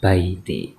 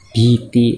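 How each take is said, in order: First: The first syllable has an ai diphthong. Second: The first syllable has a plain i vowel. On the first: "dibacanya baiti" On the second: "harusnya kan biti"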